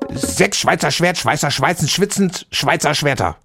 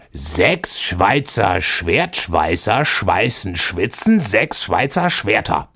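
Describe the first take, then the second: First: It is said very fast. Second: It is said slowly.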